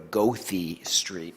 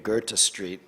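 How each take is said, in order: First: Goethe is said with a local American pronunciation. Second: Goethe is said with a German-style pronunciation. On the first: This is the name locals recognize. "They can only go to Goethe Street" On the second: Locals would not recognize the name. "if you say, take me to Goethe Street, the cab drivers don't know where to go"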